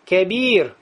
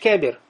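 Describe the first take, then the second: First: The vowel is held long. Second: The vowel is cut short. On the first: The speaker calls it right. "У тебя эта долгота есть и в разговоре" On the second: The speaker calls it wrong. "Ты не говоришь кабир"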